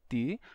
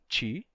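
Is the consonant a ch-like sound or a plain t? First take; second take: plain t; ch-like. First: The t is plain, with no hissing sound. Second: The t becomes a hissing, ch-like sound. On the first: "eu pronuncio ti, conservando o som original" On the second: "nem todos os brasileiros dizem ti"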